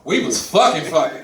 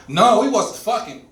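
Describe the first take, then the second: First: "fucking fucking", said as one loaded pair; emphatic doubling. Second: Said in the usual way. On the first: Shown as a demonstration. Man clarifying a date to his associate, emphatic doubled "fucking". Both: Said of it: "you have to say what you're saying twice".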